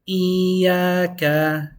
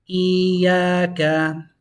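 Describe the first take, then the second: No difference in how they are said.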